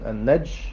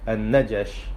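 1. لا تأتي أي حركة بعد صوت الجيم. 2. تأتي حركة 'a' بعد صوت الجيم. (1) "القراءة الأولى بالسكون" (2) "والقراءة الثانية بالفتح"

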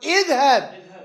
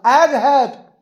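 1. الحركة الأولى هي 'i' الأمامية. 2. الحركة الأولى هي 'a' المفتوحة. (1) "يجب كسر همزة الوصل" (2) "اذا فتحت تتبع على حرفها شو يصير نطق؟"

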